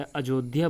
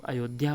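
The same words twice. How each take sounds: First: अयोध्या with J for Y; hard J in अयोध्या; incorrect pronunciation. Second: अयोध्या with a Y glide; correct pronunciation. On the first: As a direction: say अयोध्या as "ajodhya", J sound in the middle. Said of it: "अशुद्ध जो है अयोध्या बोल देते हैं". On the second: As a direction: say अयोध्या as "ayodhya", Y in the middle. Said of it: "उसका शुद्ध रूप अयोध्या होता है". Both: Shown as a demonstration.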